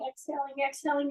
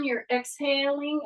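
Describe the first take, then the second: First: Softly exhaling as you count it down; fading exhale. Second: Said in the usual way. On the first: Shown as a demonstration. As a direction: breathe the word out, going softer. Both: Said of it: "Exhale, and as you're coming down".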